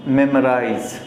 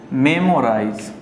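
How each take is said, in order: First: मेमोराइज ending in a buzzing "z"; मेमोराइज said "memo-raiz" with a clear z; correct pronunciation. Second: मेमोराइज ending in a "j" sound; मेमोराइज said "memo-raij" with no z; wrong pronunciation. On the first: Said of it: "मेमोराइज correct उच्चारण है". (मेमोराइज, अंत में साफ़ "ज़") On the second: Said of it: "तो ये गलत हो जाता है". (मेमोराइज, अंत में "ज" वाला गलत उच्चारण) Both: Shown as a demonstration.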